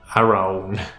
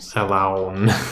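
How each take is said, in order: First: The L sound is left out. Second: The R sound is left out. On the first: "Maybe it's the L" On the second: "Maybe it's the R"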